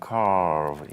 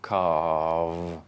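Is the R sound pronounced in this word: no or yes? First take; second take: yes; no. First: The word is said with an R sound. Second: The word is said without an R sound. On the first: "In American, this will be calf and carve" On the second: "in English, there's no R"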